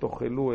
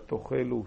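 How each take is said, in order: First: It is said in its ordinary, non-pausal form. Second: It is said in its pausal form, with pausal vowel. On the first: The speaker calls it wrong. "לא תאכלו" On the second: The speaker calls it right. "אלא תאכלו, שוב תנועת הפסק"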